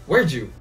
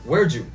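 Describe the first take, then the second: No difference in how they are said.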